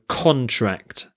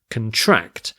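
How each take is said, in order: First: The stress is on the first syllable. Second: The stress is on the second syllable. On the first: It is a noun meaning an agreement. "If you're using it as a noun, it's the first syllable that's stressed" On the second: It is a verb meaning to get smaller. "the verb, the emphasis shifts, the stress shifts to contract"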